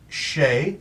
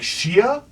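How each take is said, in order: First: The name is said as one syllable, Shay. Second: The name is said as two syllables, Shee-a. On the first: This is how the owner says the name. The speaker calls it right. "and I'm like Shay" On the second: Other people misread the name this way. The speaker calls it wrong. "They're like Shia"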